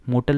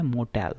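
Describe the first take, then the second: First: मोटल with a dull short middle, "mo-tal"; wrong pronunciation. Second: मोटेल with a clear "e" in the second part, mo-TEL; correct pronunciation. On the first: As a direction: say मोटल lazily, vowel swallowed. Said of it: "मोटल नहीं है". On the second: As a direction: open the e in मोटेल. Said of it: "ये क्या है? मोटेल". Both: Shown as a demonstration.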